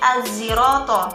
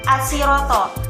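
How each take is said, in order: First: The middle consonant is a z sound. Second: The middle consonant is an s sound.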